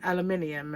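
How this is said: It is said with a British accent. This is how people say it in Britain. "the way that we say aluminium"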